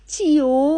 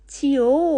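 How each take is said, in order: The two takes are said the same way.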